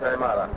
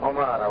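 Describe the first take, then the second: First: The first vowel is a short i sound. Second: The first vowel is a short u sound. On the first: The speaker calls it wrong. "وليس عمارة" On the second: The speaker calls it right. "أكثرهم بالضم عمارة"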